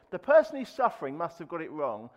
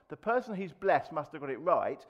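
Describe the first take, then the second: First: "suffering" and "wrong" set against the blessed line, marked firmly; contrast suffering and wrong. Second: "blessed" and "right" answer the suffering line, marked firmly; contrast blessed and right. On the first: Preacher to congregation, pressing on "suffering" and "wrong". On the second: Preacher to congregation, answering with "blessed" and "right". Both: Shown as a demonstration.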